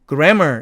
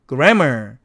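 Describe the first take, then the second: First: Only one short m sound is pronounced. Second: Both m sounds are pronounced separately. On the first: The speaker calls it right. "이렇게 발음해야 된다" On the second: The speaker calls it wrong. "grammar가 아니라"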